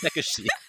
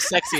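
First: It is said with three syllables, like sekushi. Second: It is said with two syllables, like sexy. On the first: The speaker calls it right. "it's sekushi" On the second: The speaker calls it wrong. "Instead of sexy"

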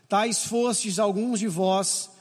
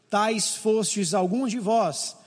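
No difference in how they are said.

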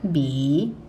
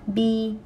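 First: The pitch dips low, then rises. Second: The pitch stays high and level.

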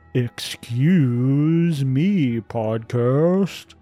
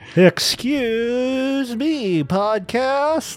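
First: It is said plainly, without extra feeling. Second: It is said with exaggerated feeling.

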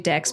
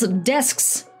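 First: The word ends with a plain ks sound. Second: The word ends with an added s sound. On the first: The speaker calls it right. "It's actually Dex" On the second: The speaker calls it wrong. "Yes, Desks"

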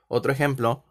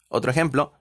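The two takes are said the same way.

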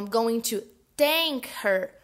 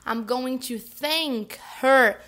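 First: The word begins with a hard T sound. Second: The word begins with a soft TH sound. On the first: The speaker will sink her. The speaker calls it wrong. "usar o som do T forte" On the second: The speaker will thank her. The speaker calls it right. "o TH com a linguinha entre os dentes"

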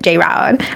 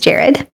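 First: The name sounds like 'J-Rod'. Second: The name sounds like 'Jared'. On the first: This is how most people say the name. The speaker calls it wrong. "A lot of people would pronounce it J-Rod" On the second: This is how the name's owner says it. The speaker calls it right. "but it's Jared"

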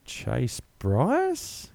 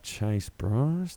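First: The name is said with a questioning tone. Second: The name is said with a disappointed tone. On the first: The speaker is unsure about the new quarterback. "Question mark?" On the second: The speaker is let down by the new quarterback.

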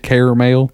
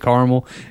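First: The word is said in a fancier, more refined pronunciation. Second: The word is said in an everyday, casual pronunciation. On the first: The speaker is trying to sound sophisticated. "I was trying to be all fancy, say caramel" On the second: This is how the speaker normally says it. "I say it caramel"

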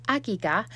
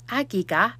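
No difference in how they are said.

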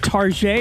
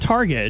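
First: It is said in a fancy, foreign-sounding way. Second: It is said in a plain, ordinary way. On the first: The store is treated as something upscale. "that's why we say Target" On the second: The store is treated as something ordinary. "instead of Target"

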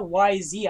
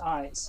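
First: It is spelled out as two letters. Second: It is said as one word, eyes. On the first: The speaker calls it wrong. "It's not YZ. I was like, that's dumb to say" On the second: The speaker calls it right. "It's pronounced eyes"

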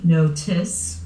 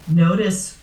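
First: The T is crisp, a clear T sound. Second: The T is flapped, sounding like a D. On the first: "Notice with the T coming out of yours" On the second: "Notice with the D coming out of my mouth"

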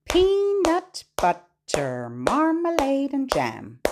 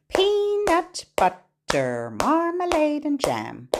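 Both takes have the same delivery.

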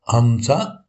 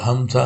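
First: The word is said at a slow pace. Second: The word is said at a fast pace.

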